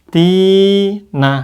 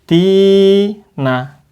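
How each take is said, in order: Both takes have the same delivery.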